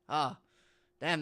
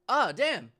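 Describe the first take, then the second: First: It sounds sympathetic and consoling. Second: It sounds curious, like noticing something. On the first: Something bad happened to someone. "the sympathetic" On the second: Something has been spotted. "that's more like, oh, look a damn"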